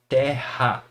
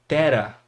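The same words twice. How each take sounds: First: "Terra" with a breathed, h-like R; strong R. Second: "tera" with a light tapped R; soft single R. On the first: Teacher showing double R, strong h-like sound. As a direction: say "Terra" with the R from the throat, like h. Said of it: "fica aquele R forte". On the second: Teacher showing one R between vowels, tapped R. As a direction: say "tera" with one quick tongue tap for the R. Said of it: "o som seria diferente". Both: Shown as a demonstration.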